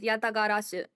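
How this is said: It is said with a Japanese accent. "and then Japanese"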